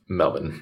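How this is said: The vowels are reduced, in an Australian accent. "You drop all vowels"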